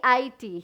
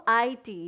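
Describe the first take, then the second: The two takes are said the same way.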